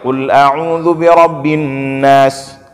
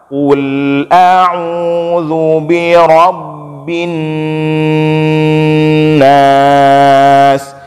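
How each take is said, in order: First: It is recited fast with short vowels. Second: It is recited slowly with long vowels.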